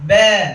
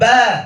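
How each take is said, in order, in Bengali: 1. স্বরধ্বনিটি 'e' ধ্বনির দিকে ঝোঁকা। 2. স্বরধ্বনিটি খোলা 'a' ধ্বনি। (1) "ইমালা করে বলি এভাবে ব্যা ... এরকম বলব না" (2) "ঠোঁটটিকে হালকা একটু ছড়িয়ে আ বলার চেষ্টা করব"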